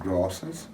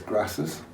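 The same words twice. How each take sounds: First: It is said in a non-Yorkshire accent. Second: It is said in a Yorkshire accent. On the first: "rather than grasses" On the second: "I'm from Yorkshire, so it's grasses"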